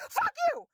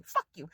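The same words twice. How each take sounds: First: Fuck you screeched far higher, breaking off; angry shriek. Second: Said in the usual way. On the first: Real, not acted. Venting at private equity, a furious high shriek. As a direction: shriek it at them in fury. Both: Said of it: "I'm angry".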